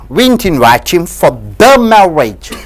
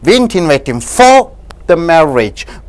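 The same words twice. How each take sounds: First: The stress falls on the word "the". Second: The stress falls on the word "for". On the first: It was a different marriage. "if you stress the word the" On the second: He was invited for something else. "if you stress on for"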